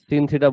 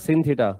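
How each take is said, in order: First: The first word sounds like 'sin'. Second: The first word sounds like 'sin'.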